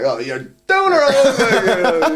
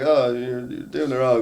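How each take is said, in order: First: It is said energetically, with strong emphasis. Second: It is said flatly, with little emphasis.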